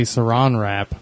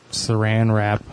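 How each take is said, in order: First: "Saran" rhyming with "on"; Saran with broad a. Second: "Saran" rhyming with "ran"; Saran with short a. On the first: Asking co-host what if, "Saran" as suh-RAHN. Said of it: "What if it was actually". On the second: Giving co-host a familiar example, "Saran" as suh-RAN. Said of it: "translate what you're familiar with". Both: Shown as a demonstration.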